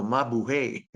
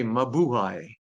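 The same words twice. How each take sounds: First: Mabuhay ending in hey, ma-bu-hey; American pronunciation. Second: Mabuhay ending in hai, ma-bu-hai; Filipino pronunciation. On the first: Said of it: "In American, they would say hey". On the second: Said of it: "But in Philippines, we say". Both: Shown as a demonstration.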